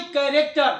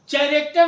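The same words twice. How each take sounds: First: कैरेक्टर with a hard "k" at the start; correct pronunciation. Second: चैरेक्टर with "ch" as in "chair"; wrong pronunciation. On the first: (कैरेक्टर, "क" से शुरू सही उच्चारण) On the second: (चैरेक्टर, "च" से शुरू गलत उच्चारण) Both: Shown as a demonstration. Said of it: "चैरेक्टर नहीं".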